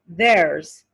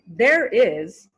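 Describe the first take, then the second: First: It is said as one contracted word. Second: It is said as two full words. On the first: "changes to theirs" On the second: "changes to theirs"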